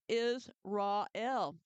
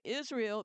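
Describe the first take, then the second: First: The name is broken into three separate parts. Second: The name is said smoothly as one word.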